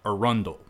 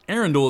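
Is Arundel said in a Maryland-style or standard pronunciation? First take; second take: Maryland-style; standard. First: The name gets a local Maryland-style pronunciation. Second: The name gets a standard, non-local pronunciation.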